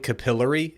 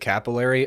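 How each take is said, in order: First: It is said the way New Zealanders say it. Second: It is said the way Americans say it. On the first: The speaker calls it wrong. "if you start saying capillary" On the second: The speaker calls it right. "instead of capillary"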